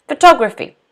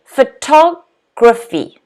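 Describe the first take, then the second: First: Said in the usual way. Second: Slow "Photography", pho-TOG held, then graphy; stress on second syllable. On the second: Shown as a demonstration. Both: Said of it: "stress is on the second syllable".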